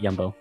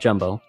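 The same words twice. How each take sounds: First: It begins with a Y sound. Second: It begins with an English J sound. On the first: "here they pronounce it Jumbo because the Dutch J is a Y" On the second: "it's spelled Jumbo"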